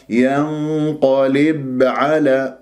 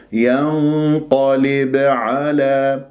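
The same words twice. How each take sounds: First: ينقلب with the ب held, no bounce; held ba, no qalqala. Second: ينقلب with a small bounce on the ب; ba with light qalqala. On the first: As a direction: hold the ب in ينقلب instead of bouncing it. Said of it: "شوف هذا مسك الباء وليس قلقلة". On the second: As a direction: tap the ب in ينقلب and release it. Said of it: "إذن أب". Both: Shown as a demonstration.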